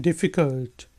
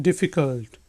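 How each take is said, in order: The two takes are said the same way.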